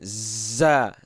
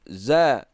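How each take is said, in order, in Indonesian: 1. Konsonan itu diucapkan dengan udara yang keluar. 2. Konsonan itu diucapkan tanpa udara yang keluar. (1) "membacanya dengan hamas. Mana hamas keluar angin" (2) "Akan tetapi cara kita baca itu"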